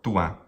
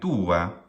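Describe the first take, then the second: First: The first vowel is quick and short. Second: The first vowel is drawn out and emphasized. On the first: The speaker calls it right. "It's always short" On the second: The speaker calls it wrong. "When it's emphasized in the way that I'm exaggerating it... this is not correct"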